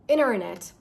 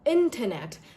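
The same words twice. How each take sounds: First: The T after N is dropped. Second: The T after N is softly pronounced. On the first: "in American accent, you do not pronounce the T" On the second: "in British accent, we pronounce this as internet"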